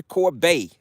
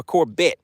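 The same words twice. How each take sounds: First: Corbet ending in a long "bay" sound; French-style pronunciation. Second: Corbett ending in a short "bet"; anglicised pronunciation. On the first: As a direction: say Corbet as "cor-BAY", silent t. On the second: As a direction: say Corbett as "COR-bet", t sounded. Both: Shown as a demonstration. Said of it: "Hope I'm pronouncing that right".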